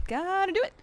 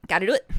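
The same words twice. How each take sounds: First: "Gotta do it" sung up high and bouncy; high sing-song. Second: Said in the usual way. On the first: Shown as a demonstration. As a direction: lift "Gotta do it" into a high playful rise. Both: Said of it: "repeats it higher".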